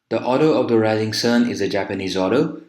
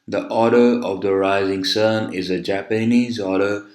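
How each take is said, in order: First: It is spoken at a normal, natural speed. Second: It is spoken at a very slow speed. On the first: The listener can follow easily. The speaker calls it right. "Now this is natural" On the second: The speaker is deliberately dragging. The speaker calls it wrong. "if I speak very slow like this"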